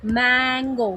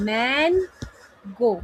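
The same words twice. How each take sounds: First: Said in the usual way. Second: "mango" as a long MAN, a pause, then GO; split into syllables. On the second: Shown as a demonstration. Teacher clapping out syllables, "mango" split in two with a gap. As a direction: break "mango" into two separate beats. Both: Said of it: "clap for every syllable of the word".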